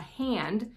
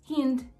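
First: Said in the usual way. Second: Imitated Kiwi "hind", hand said with an eh vowel; A becomes E. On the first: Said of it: "replace, like, an A with an E". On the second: Shown as a demonstration. American vlogger showing A replaced by E, imitated Kiwi pronunciation. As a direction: say "hind" slowly, as in hend. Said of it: "an A with an E".

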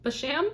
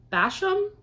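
First: "Basham" as buh-SHAM, rising question; stress on second syllable. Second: "Basham" as BASH-um, questioning; stress on first syllable. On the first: Reader guessing at the author's last name, buh-SHAM. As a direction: try "Basham" with the weight on SHAM. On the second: Reader unsure of the author's last name, BASH-um. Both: Real, not acted. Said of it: "No idea how to pronounce".

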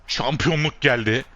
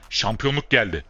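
First: The repeat higher and louder; excited cheer. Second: Said in the usual way. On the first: Real, not acted. Player celebrating winning the title, louder excited repeat. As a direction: lift the second one into a cheer.

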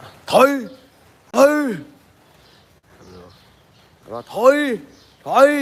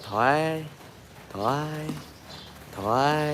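First: High, loud order to back off; commanding shout to an elephant. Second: Quiet, gentle "ถอย" said softly; soft command to an elephant. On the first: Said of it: "เราเปล่งเสียงออกไปประมาณว่า". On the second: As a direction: say the command gently, barely above a murmur. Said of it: "แต่พูดว่า". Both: Shown as a demonstration.

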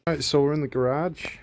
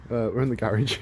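First: Slipped into an American accent. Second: Said in the usual way. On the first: Real, not acted. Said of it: "Why did I say it like I'm American?". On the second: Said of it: "Sorry about that".

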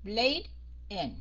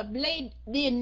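First: BLADE, a clear half-second pause, IN; stop between words. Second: BLADE IN run on as "blade-din"; wrongly linked. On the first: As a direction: say Blade, stop briefly, then in. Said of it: "Stop một chút xíu rồi mình mới đọc". (Blade, ngừng một chút, rồi in) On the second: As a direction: carry the D of blade onto in. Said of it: "Mình không có đọc là". (blade in đọc nối thành "blây-đin") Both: Shown as a demonstration.

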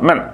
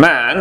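First: Men with a short, clipped e sound; short vowel men. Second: Man with a drawn-out, long a sound; long vowel man. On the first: Teacher showing the short vowel in men. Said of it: "This one is short sound". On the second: Teacher showing the long vowel in man. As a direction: stretch the a in man. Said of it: "long sound". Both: Shown as a demonstration.

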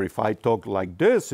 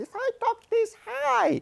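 First: Low-pitched demo. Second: Very high squeaky falsetto; high-pitched demo. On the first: Engineer explaining frequency to the interviewer, low-pitched. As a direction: drop into a low voice to demonstrate. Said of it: "it's a very low pitch". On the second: Engineer showing the interviewer high frequency, very high-pitched. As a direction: jump way up high to demonstrate. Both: Shown as a demonstration.

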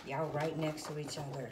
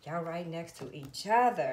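First: Said in the usual way. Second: "Y'all right next to each other" said louder and slower, every word leaned on; emphatic repeat. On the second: Real, not acted. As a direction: hammer the line home slowly and loud.

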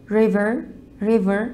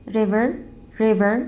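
Both takes have the same delivery.

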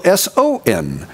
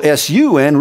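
First: "S O N" spelled out letter by letter as S, O, N; "S O N" as three separate letters, set against S U N. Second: "S U N" spelled out letter by letter as S, U, N; "S U N" as three separate letters. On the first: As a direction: spell out "S O N" letter by letter, meaning the Son. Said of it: "the unconquerable S O N". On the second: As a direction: spell out "S U N" letter by letter, the sun in the sky. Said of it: "not the unconquerable S U N". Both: Shown as a demonstration.

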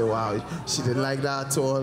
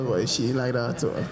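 First: Mock surprised wow. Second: Said in the usual way. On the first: Shown as a demonstration.

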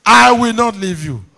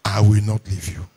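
First: "I will not leave you" high and loud; raised, forceful emphasis opening on "I"; emphatic repetition. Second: Said in the usual way. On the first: Real, not acted. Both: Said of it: "Repetition for emphasis".

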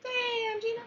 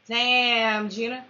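First: Squeaky high Damn Gina; high-pitched catchphrase. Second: Said in the usual way. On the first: Shown as a demonstration. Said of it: "catchphrase in high voice".

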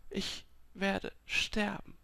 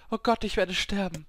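First: Slow, high, soft and fearful; stunned dread. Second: High, urgent fearful cry; panicked realisation. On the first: Dying woman absorbing that she will die, slow fearful hush. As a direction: break it into slow, faint words. Repeats it, giving up. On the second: Dying woman realising she will die, high panicked voice. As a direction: blurt it out in rising panic. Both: A narrator's reading.

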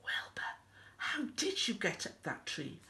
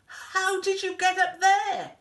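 First: Soft, unvoiced bedtime whisper; hushed secret question. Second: High, loud amazed question; startled high-pitched exclamation; astonished. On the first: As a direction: whisper it with a smile. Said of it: "Elmer smiled and whispered". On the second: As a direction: cry it out in disbelief. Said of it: "gasped Elmer". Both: A narrator's reading.

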